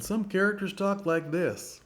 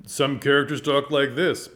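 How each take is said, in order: First: Much higher-pitched character voice. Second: Louder character voice, punched out. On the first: Actor shows another kind of character timbre, high character voice. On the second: Actor shows one kind of character timbre, louder character voice. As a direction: project a bold character voice. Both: Shown as a demonstration.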